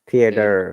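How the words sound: It is said in an American accent.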